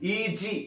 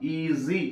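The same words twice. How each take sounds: First: The middle sound is a stopped 'j' sound. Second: The middle sound is a smooth buzzing 'z' sound. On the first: The speaker calls it wrong. "ఈజీ అనం" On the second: The speaker calls it right. "సేమ్ ఎట్లానే పలుకుతాం... ఈజీ అంటాం"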